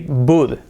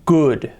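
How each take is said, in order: First: The word begins with a B sound. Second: The word begins with a G sound. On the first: "if we close our mouth, we say bud" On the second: "if we close our throat, we say good, con G"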